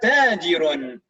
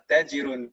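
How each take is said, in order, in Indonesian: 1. Vokal pertama dibaca panjang. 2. Vokal pertama pendek dan datar. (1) "taknya panjang dipanjangkan" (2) "jangan uh, dibacanya datar"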